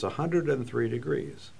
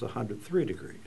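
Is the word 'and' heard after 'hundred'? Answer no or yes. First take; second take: yes; no. First: An 'and' is said between hundred and three. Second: No 'and' is said between hundred and three. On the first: The speaker calls it wrong. "that little and in there doesn't belong" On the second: The speaker calls it right.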